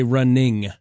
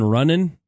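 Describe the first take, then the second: First: The ending is said with the full ing sound. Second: The ending is said without the final g sound. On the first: "They would actually say the ing" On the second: "instead of ending words with like I'm going running"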